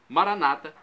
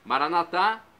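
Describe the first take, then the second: First: The stress is on the second-to-last syllable. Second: The stress is on the last syllable. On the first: This is how Protestants pronounce it. "Pronúncia na penúltima sílaba" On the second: This is how Catholics pronounce it. "com a tônica na última sílaba"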